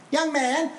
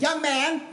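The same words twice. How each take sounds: First: Put-on much higher, rising call of an old lady. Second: Put-on much higher, lilting call of an old lady. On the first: Old lady in a walker hailing him, high call. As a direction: sing it up like a tiny old woman. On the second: Old lady calling the pastor from behind, high and lilting. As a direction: call up to him like a tiny old woman. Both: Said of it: "this little old lady in a walker in her nineties".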